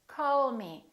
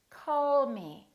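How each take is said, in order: The two takes are said the same way.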